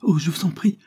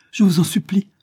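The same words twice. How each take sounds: First: High, rising, desperate plea; frightened mother pleading for her son. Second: High, breathless whispered begging; desperate hushed supplication; pleading whisper. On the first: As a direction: beg her to stop. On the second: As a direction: whisper the plea urgently. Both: A narrator's reading. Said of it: "sollicitait Isabelle".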